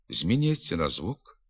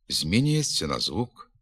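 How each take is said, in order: Both takes have the same delivery.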